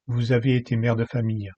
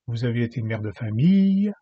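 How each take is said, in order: First: The final vowel is short and plain. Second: The final vowel is lengthened and emphasized.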